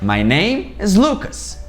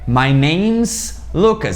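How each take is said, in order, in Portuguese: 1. A palavra 'is' é falada como uma palavra separada. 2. O 'is' é unido ao 'name' como 'name's'. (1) "uma forma um pouco mais longa, a gente não tem nenhuma abreviação" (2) "forma contraída... A gente emenda esse is no name"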